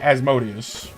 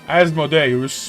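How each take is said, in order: First: The name is said in the common everyday pronunciation. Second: The name is said in a Latin-style pronunciation. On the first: "a lot of people just, just say Asmodeus" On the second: "it's more of a Latin pronunciation"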